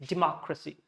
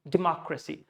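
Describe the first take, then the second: No difference in how they are said.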